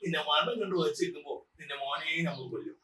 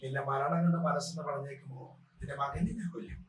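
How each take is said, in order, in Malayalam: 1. ഇത് അനുകരിച്ച കോഴിക്കോടൻ കോമിക് ശബ്ദത്തിലാണ് പറയുന്നത്. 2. ഇത് കൊച്ചിയിലെ ലോക്കൽ വില്ലൻ ശൈലിയിലാണ് പറയുന്നത്. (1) "ഈ ഒരു സംഭാഷണം നമ്മുടെ മാമുക്കോയക്കയോട് ഞാൻ അവതരിപ്പിക്കുകയാണ്" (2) "ഫസ്റ്റ് സിനിമയിൽ മണിച്ചേട്ടൻ ചോട്ടാമുമ്പ സിനിമയിൽ മണിച്ചേട്ടൻ കഥാപാത്രം"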